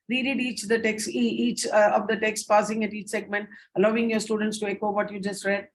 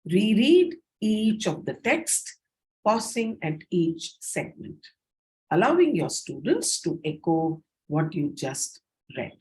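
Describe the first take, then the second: First: "reread each the text" read fast, straight through with few pauses; quick run-through. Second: Paced by segment. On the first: Teacher demonstrating one way of reading the slide, fast and unpaused. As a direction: rush the instructions on without pausing at each segment. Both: Shown as a demonstration. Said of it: "That's one way of reading".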